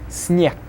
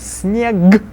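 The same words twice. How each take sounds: First: The final consonant is voiceless. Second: The final consonant is voiced. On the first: The speaker calls it right. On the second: The speaker calls it wrong.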